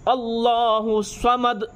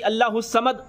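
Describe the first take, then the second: First: The s-sound is emphatic with rounded lips. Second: The s-sound is a plain thin s. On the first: The speaker calls it right. "स्वाद से, मुंह को गोल करके" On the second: The speaker calls it wrong. "सीन से बोलते हैं"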